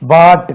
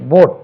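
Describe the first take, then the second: First: The vowel sounds like a long 'ah'. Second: The vowel sounds like a rounded 'oh'. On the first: The speaker calls it wrong. "இது பாட் கிடையாது" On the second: The speaker calls it right.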